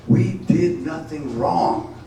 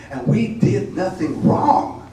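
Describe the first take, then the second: First: Drawn-out protest cry; slow, loud defiant refrain. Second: Defiant cry. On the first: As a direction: stretch each word, loud and higher. Defiant refrain repeated slower. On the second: Defiant refrain of poem. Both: Acted.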